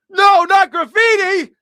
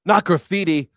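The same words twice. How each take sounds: First: "No, not graffiti." yelled high and loud, slow; shouting correction. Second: "Not graffiti." with stress on "Not", a touch louder; first step of a rising insistence; building correction. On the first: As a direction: scream "No" and "not" in exasperation. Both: Shown as a demonstration.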